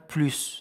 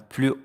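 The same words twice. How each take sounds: First: The final S sound is pronounced. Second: The final S sound is silent. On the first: It compares a quantity. "quand on parle de la quantité on prononce le S" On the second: It compares a quality. "quand on a la qualité, on ne prononce pas le S"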